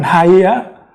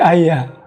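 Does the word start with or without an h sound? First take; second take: with h; without h. First: The word begins with an h sound. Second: The word begins directly with a vowel. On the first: The speaker calls it wrong. "Jadi bukan Haya" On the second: The speaker calls it right. "tapi menjadi Aya"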